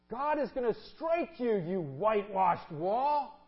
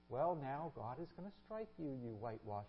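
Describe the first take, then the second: First: It is said angrily, losing temper. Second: It is said calmly and politely.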